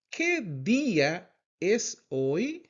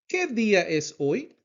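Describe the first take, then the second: First: "¿Qué día es hoy?" slowly, word by word; slow teacher's "¿Qué día es hoy?", rising at "hoy"; slow model repeat. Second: Said in the usual way. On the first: Shown as a demonstration. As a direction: stretch out "¿Qué día es hoy?" with gaps for learners.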